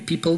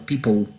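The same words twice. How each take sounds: First: The final L is a light, clear L. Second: The final L is dark, like Polish ł. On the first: The speaker calls it wrong. "nie powie people" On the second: The speaker calls it right. "tylko people"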